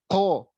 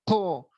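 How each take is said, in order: No difference in how they are said.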